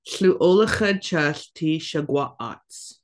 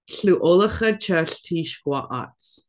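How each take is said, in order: First: A schwa vowel is pronounced in the phrase. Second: A schwa vowel is left out of the phrase. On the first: The speaker calls it right. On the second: The speaker calls it wrong.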